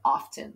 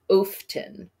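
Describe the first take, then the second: First: The first vowel is a short O sound. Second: The first vowel is a long O sound. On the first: The speaker calls it right. "So this is a short O" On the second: The speaker calls it wrong. "the vowel normally says its name. So technically it should say often"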